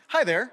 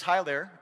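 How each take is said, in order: First: Louder, higher, a bright hello; friendly greeting. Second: Said in the usual way. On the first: Retold or imitated. Pastor re-reading the texter's hello warmly. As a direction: greet the room like an old friend. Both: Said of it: "Well, that's very friendly".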